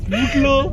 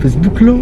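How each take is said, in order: First: High, teary laugh through the words. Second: Said in the usual way. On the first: Real, not acted. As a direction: say it while cracking up. Repeats it while laughing.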